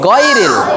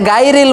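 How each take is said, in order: First: The first consonant is heavy and full. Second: The first consonant is thin and light. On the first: The speaker calls it right. "এটা মোটা হবে, গ হবে" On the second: The speaker calls it wrong. "এই যে গায়রিল বলে"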